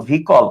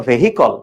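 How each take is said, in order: First: ভেহিকল said "VEE-kol", dropping the h; spoken pronunciation. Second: ভেহিকল as "ve-hi-kol", with audible h; spelling pronunciation. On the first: Teacher repeating the pronunciation to class, ভেহিকল as "vee-kol". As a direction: drop the middle h in ভেহিকল, making it vee-kol. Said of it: "উচ্চারণটা হলো". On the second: Teacher contrasting spelling for students, ভেহিকল as "ve-hi-kol". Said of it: "কিন্তু বানানটা হলো". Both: Shown as a demonstration.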